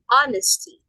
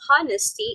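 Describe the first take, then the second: First: The word begins with a vowel, no h sound. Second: The word begins with a pronounced h sound. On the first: The speaker calls it right. "You do not pronounce the letter H" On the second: The speaker calls it wrong. "instead of"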